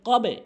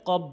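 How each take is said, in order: First: The b is released with a bouncing echo. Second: The b is clipped short without a bounce. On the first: The speaker calls it right. "এখানে ধাক্কা দিয়ে বলতে হবে" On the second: The speaker calls it wrong. "অধিকাংশ লোক ভুল বলে, কব বলে"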